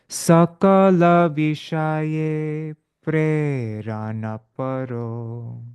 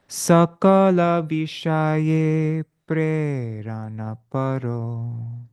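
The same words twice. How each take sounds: The two takes are said the same way.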